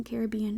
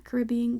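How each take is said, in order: First: "Caribbean" said ca-RIB-be-an, softer; "Caribbean" with the weight on rib; Caribbean, stress on rib. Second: "Caribbean" said ca-rib-BEE-an; "Caribbean" with the weight on bee; Caribbean, stress on bee. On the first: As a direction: stress the second syllable of "Caribbean". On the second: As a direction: stress the third syllable of "Caribbean". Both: Shown as a demonstration. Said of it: "or is it Caribbean?".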